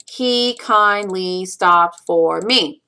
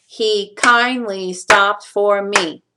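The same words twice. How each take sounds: First: "He kindly stopped for me" slow, syllable by syllable; counting out syllables. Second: "He kindly stopped for me" slow, stress on kind-, stopped, me; stressing the beats. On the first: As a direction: give each syllable of "He kindly stopped for me" its own even beat. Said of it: "count out the syllables". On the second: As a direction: beat out every second syllable of "He kindly stopped for me". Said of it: "what you get is four stresses". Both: Shown as a demonstration.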